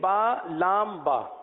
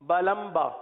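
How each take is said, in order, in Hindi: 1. हर अक्षर का नाम अलग और पूरा बोला जाता है। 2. अक्षरों के नाम जल्दी-जल्दी जोड़कर बोले जाते हैं।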